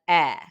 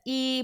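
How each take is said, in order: First: The vowel is short, as in net. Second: The vowel sounds like the letter's name. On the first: "a short E says" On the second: "A long E says"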